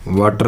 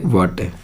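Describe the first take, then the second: First: वाटर with the final R sounded; common wrong pronunciation. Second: वाटर as "waa-te", the R dropped; corrected silent R. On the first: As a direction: say वाटर as "waa-tar", R and all. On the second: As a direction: finish वाटर on a falling open "eh". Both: Shown as a demonstration. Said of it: "वाटर नहीं बोलते".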